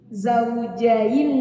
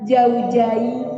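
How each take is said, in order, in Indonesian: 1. Kata "zaujain" diawali dengan bunyi z. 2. Kata "zaujain" diawali dengan bunyi j. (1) "Zai dulu baru Jim zaujain" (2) "Jadi Jim dua-duanya"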